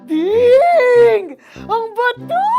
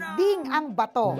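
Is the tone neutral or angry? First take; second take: angry; neutral. First: It is said in a furious tone. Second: It is said in a neutral tone.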